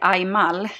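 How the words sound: The name is said with a Swedish pronunciation. "In Swedish, we would say Aymal"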